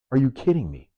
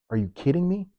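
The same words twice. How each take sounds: First: Said in the usual way. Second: High incredulous question; high-pitched outraged disbelief. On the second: Real, not acted.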